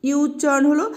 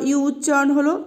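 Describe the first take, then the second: No difference in how they are said.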